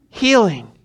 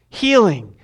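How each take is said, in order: Both takes have the same delivery.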